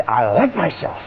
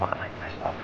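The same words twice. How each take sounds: First: Said in the usual way. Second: I like myself breathed as a whisper; whispered to yourself. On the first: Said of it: "but if you say". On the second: Shown as a demonstration. Coach contrasting silent self-talk, whispered. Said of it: "If you say to yourself".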